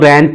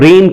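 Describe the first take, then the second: First: The vowel is a flat, short 'eh' sound. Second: The vowel is a gliding 'ay' sound.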